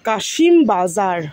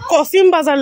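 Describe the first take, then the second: First: The first word is said 'Kaa-shim' with an sh sound. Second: The first word is said 'Ko-sim' with an s sound. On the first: This is the local Bengali name. "এটা কাশিম বাজার।" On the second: This is how the English spelling renders it. "English বানানটা কি লেখছে? কসিম বাজার লেখছে"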